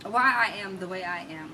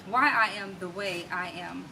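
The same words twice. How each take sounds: The two takes are said the same way.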